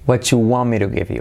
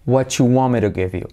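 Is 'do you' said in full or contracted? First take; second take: contracted; contracted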